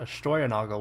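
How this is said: The name is said with German pronunciation. This is how the name originally sounded. "would have been the German pronunciation of it"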